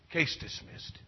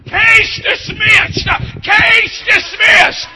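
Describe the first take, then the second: First: Breathy hushed ruling, nearly voiceless; hushed verdict. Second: Slow, high, loud ringing ruling; shouted verdict. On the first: Retold or imitated. Judge quietly ending the case, in a hush. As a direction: let the verdict fall softly. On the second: Acted. Preacher proclaiming God's verdict, slow and shouted. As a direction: proclaim the verdict at full force.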